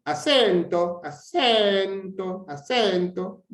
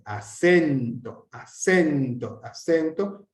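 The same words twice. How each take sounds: First: ACENTO sung up high on the stressed syllable; tonal accent. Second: ACENTO with a slow, drawn-out stressed middle syllable; intensity accent. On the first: Teacher contrasting accents for students, pitch-raised tonal ACENTO. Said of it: "que hacer un acento tonal". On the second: Teacher demonstrating intensity accent to students, stressed ACENTO. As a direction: stress the SEN of ACENTO by weight, at usual pitch. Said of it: "Una cosa es hacer un, un acento de intensidad". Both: Shown as a demonstration.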